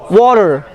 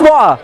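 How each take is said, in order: First: The T sounds like a D, R is voiced. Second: The T sound is dropped from the word. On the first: "the T would become D and R would be stressed, would be voiced" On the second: "T it's not pronounced"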